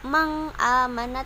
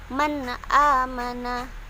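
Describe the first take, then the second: First: The n sound is blurred and nasal. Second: The n sound is pronounced clearly. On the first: The speaker calls it wrong. "bukan me disamarkan, bukan juga" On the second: The speaker calls it right. "tapi man amana ... jelas bacaannya"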